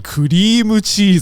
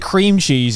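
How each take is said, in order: First: It is said with a Japanese katakana accent. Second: It is said with a plain English accent. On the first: The speaker calls it right. "you say cream cheese" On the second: The speaker calls it wrong. "you don't say cream cheese"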